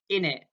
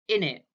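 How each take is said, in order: First: The phrase is reduced, dropping sounds. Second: The same.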